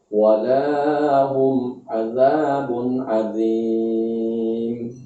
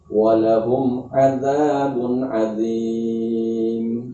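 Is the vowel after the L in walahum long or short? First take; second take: long; short. First: The vowel after the L is long. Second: The vowel after the L is short. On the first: The meaning of the verse is changed. The speaker calls it wrong. "dipanjangkan huruf lamnya pada kalimat lahum" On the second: For them there is a great punishment. The speaker calls it right. "Walahum, lamnya pendek"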